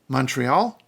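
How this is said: It is pronounced the English way. "The biggest city in Quebec is Montreal"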